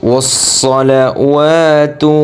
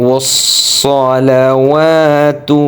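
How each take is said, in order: No difference in how they are said.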